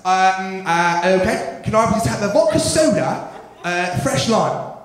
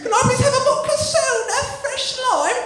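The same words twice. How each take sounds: First: Put-on hesitant English-accented bar order; mock English customer accent. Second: Very high-pitched English order; high put-on English patron; English bar customer. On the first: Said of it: "People from England".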